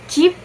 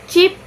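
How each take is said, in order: No difference in how they are said.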